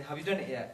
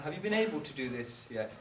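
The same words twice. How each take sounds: First: A touch of curt, demanding tone; mild scolding parent question. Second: Said in the usual way. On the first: Shown as a demonstration. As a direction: press them like a critical parent. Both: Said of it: "There's a very big difference".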